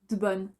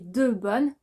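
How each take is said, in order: First: The vowel in 'de' is dropped. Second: The vowel in 'de' is clearly pronounced.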